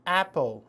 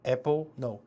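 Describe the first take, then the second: First: Apple with the mouth stretched wide; corrected apple. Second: Apple with a flat Korean 애, then rejected; the wrong way to say apple. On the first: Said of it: "약간 째세요, 입을". (입을 째서 apple) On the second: (틀린 apple 발음) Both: Shown as a demonstration.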